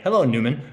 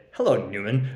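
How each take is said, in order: First: Said in the usual way. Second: A lightly mocking "Hello, Newman." with a rising end; a dry, teasing greeting, lightly imitated; Seinfeld-style Hello Newman. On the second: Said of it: "He loves when people say".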